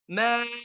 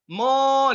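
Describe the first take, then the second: First: The vowel is bright and thin, lips spread. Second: The vowel is dark and thick, lips rounded. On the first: The speaker calls it right. "Harf sebelumnya tipis maka dia ma" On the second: The speaker calls it wrong. "Tapi kalau tebal"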